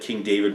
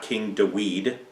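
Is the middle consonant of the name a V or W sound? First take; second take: V sound; W sound. First: The middle consonant of the name is a V sound. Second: The middle consonant of the name is a W sound. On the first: The speaker calls it right. "the Vav is pronounced as a V" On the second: The speaker calls it wrong. "was not King Dawid"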